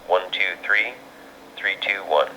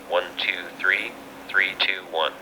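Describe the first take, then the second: First: It is transmitted through a pricier handheld radio. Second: It is transmitted through a cheap handheld radio. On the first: "short count test of the Ver of the Yaesu V X seven" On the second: "to test the audio on the Baofeng radio"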